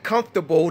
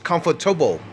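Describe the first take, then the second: First: The word is said with three syllables. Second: The word is said with four syllables. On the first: The speaker calls it wrong. "he said comfortable. That's three" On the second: The speaker calls it right. "The proper way to say it is comfortable"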